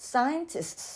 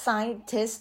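First: "scientists" higher, with a long hissed S at the end; careful teacher's "scientists", final S sustained; plural S ending. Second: "scientist" ending in a single S-T, no extra S; "scientist" without the sibilant plural tail; singular ending. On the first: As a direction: sound out the plural tail of "scientists". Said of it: "เพราะฉะนั้นครูจึงอ่านเป็น". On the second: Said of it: "โดยที่ออกเสียงแค่ scientist ธรรมดา". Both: Shown as a demonstration.

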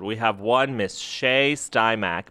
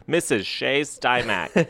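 First: Said in the usual way. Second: Missus said slowly and deliberately; stress on Missus. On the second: Shown as a demonstration.

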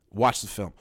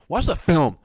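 First: Said in the usual way. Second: Exasperated. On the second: Shown as a demonstration. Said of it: "louder repeat".

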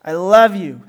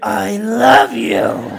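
First: Grudging, unmeant declaration; dutiful mumbled kid reply; half-hearted child. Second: Put-on very slow, overdone child declaration; hammed-up, stretched-out "I love you"; exaggeratedly meaning it. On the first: Acted. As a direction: say it only because you were told. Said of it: "say it kinda half-hearted". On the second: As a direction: drag out each word in mock compliance. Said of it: "Say it like you mean it".

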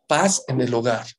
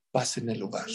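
First: "Paz en el hogar" repeated full voice, firm. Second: Dropped soft, low-key reveal; hushed reveal. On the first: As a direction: restate "Paz en el hogar" firmly. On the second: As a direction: let the answer fall softly. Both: Shown as a demonstration. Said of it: "¿saben cuál es?".

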